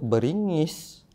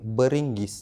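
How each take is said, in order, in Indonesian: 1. Setelah ng tidak ada bunyi g keras. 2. Setelah ng ada bunyi g keras. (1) "selalunya orang sebut beringis" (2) "kalau yang proper bahasa Melayu kali beringgis"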